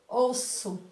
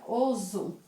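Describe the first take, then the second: First: The middle consonant is a hissing S sound. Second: The middle consonant is a buzzing Z sound. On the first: "para que ele tenha o som forte, o som de S, ele tem que vir dobrado" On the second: "Teria o som de Z"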